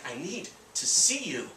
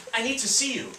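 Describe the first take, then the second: First: "I need to see you" spaced out, weight on "need" and "see"; deliberate repeat. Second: Quick, higher-pitched urgent plea; retold disturbed caller, said in one go. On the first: Retold or imitated. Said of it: "She just repeated it again". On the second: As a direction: blurt it as a troubled caller. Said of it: "She sounded disturbed".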